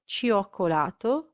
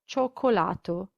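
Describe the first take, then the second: First: The i is sounded as its own vowel. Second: The i is silent, giving a plain cho sound. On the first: The speaker calls it wrong. "it's not ciao or cioccolato" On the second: The speaker calls it right. "the I is silent"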